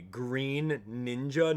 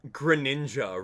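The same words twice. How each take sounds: First: Slow "Green Ninja", long ee, two separate words; split into Green Ninja. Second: Short unstressed first syllable in "Greninja"; Greninja as gri-NIN-ja. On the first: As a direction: drag it out as GREEN NIN-ja. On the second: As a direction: run it together as gri-NIN-ja. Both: Shown as a demonstration. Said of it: "No one pronounces it Green Ninja".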